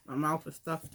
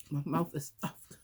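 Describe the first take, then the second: First: Talking through a full mouth; mouth stuffed. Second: Slow, soft, mouth crammed full; mouth stuffed. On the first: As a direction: cheeks stuffed full with food. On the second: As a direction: talk past a mouthful of chicken. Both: Real, not acted.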